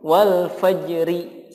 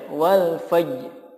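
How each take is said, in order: First: The final r is followed by a vowel i. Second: The final r sound is dropped. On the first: "Atau dibaca diharokati" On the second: "Tapi ro-nya enggak ada"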